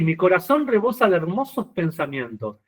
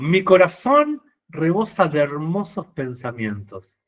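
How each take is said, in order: First: It is read plainly, without acting. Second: It is read dramatically, acted like a poet.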